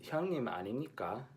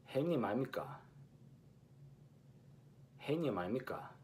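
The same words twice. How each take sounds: First: Fast 형님 아닙니까 with each ㄴ clear; Seoul way, full 아닙니까; crisp Seoul take; Seoul pronunciation. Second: 형님 아닙니까 as 아이미까, ㄴ dropped; lazy-tongue Busan take; Busan pronunciation. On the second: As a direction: Busan dialect contrast take. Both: Shown as a demonstration. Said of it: "note the difference between".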